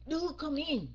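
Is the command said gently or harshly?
harshly. It is said in a harsh, barking tone. It is a stern order. The speaker calls it wrong. "không phải là nạt nộ"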